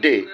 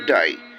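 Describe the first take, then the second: First: The vowel sounds like a plain day vowel. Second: The vowel sounds like the one in die. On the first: "we say day" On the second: "the Australians, they say to die"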